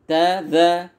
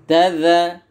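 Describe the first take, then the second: Both takes have the same delivery.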